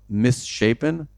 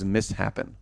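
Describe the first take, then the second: First: The middle sounds like the word shape. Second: The middle sounds like the word happen. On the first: The speaker calls it right. "instead of the word um, misshapen" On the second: The speaker calls it wrong. "I thought it was mishappen"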